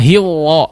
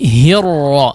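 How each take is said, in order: First: The r loses its trill, sounding like w. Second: The r has a light, muted trill. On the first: The speaker calls it wrong. "tidak hiwa ... tidak hilang" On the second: The speaker calls it right. "disamarkan getarannya"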